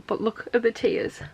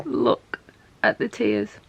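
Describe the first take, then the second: First: Said in the usual way. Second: Whispered, holding back tears; real teary hush; tearful whisper. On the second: Real, not acted. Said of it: "I'm trying not to cry".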